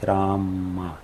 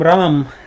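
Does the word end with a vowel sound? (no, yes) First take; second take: yes; no. First: The word ends with a short a vowel. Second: The word ends without a final vowel. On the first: It follows strict Sanskrit rules. "по строгим правилам произношения санскрита нужно произносить Рама, короткое А в конце" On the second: It follows the Bengali manner. "на бенгальский манер, потому что там последние Ани произносятся"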